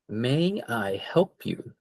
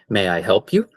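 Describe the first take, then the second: First: It is said at a slower, careful pace. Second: It is said at a quicker pace.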